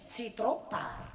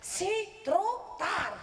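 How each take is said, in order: First: Said in the usual way. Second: Very slow, higher stern refusal; lightly voiced offended mother. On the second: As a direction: drag it out, unforgiving.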